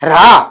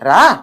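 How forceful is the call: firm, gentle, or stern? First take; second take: stern; firm. First: The word is barked out sternly and harshly. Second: The word is called with a firmer, changed intonation. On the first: The child comes trembling. "వణుక్కుంటూ వస్తాడా రాడా?" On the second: The child still does not come. "మారిందా intonation?"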